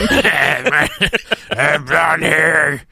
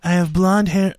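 First: It is read in an imitated put-on voice. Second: It is read in the speaker's normal voice.

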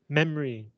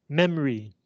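No difference in how they are said.

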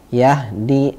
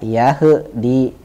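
First: The sukun letter is held still without bouncing. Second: The sukun letter is bounced with an echo. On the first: The speaker calls it right. "Contohnya Yahdi" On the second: The speaker calls it wrong. "jangan dibaca Yahdi"

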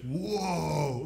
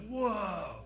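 First: It sounds dismayed and grieving. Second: It sounds amazed and impressed.

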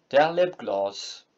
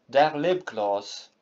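No difference in how they are said.

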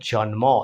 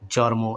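First: An n sound comes before the m. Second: An r sound comes before the m. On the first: The speaker calls it right. "সঠিকটা" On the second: The speaker calls it wrong. "আমাদের এলাকায় ভুলভাবে এভাবে বলে থাকি locally"

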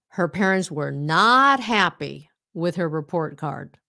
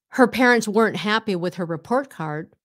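First: The word not is said fully and stressed. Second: The word not is contracted into weren't. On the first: It emphasizes that they were not happy. "Now we use the full word to nhấn mạnh đó" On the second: It is a neutral statement. "instead of saying"

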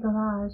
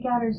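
First: It is pronounced the non-Scottish way. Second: It is pronounced the Scottish way. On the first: This is how the listeners say it. "You guys say garage" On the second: This is how people in Scotland say it. "We say garage in Scotland"

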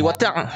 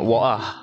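First: It is said in a northern Malaysian accent. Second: It is said in an English accent.

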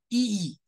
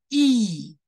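First: The vowel is short and clipped. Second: The vowel is drawn out long. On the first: The speaker calls it wrong. "不能念成一" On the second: The speaker calls it right. "而是要念成一，拉长的意思"

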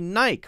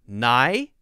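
First: The word ends with a plain 'k' sound, rhyming with 'bike'. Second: The word ends with a 'kee' sound, like 'key'. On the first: The speaker calls it wrong. "So this must be Nike, right? Wrong" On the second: The speaker calls it right. "It is pronounced Nike. Like K-E-Y key"

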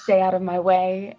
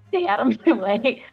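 First: The line is said without laughing, deadpan. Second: The line is said while laughing. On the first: The speaker calls it right. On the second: The speaker calls it wrong.

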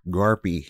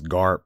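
First: The name ends with an ee vowel. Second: The name ends on a bare p sound. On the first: The speaker calls it right. "I'm gonna make use of every letter of my last name. It sounds strong" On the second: The speaker calls it wrong. "that would be wasting that well-placed E right at the end"

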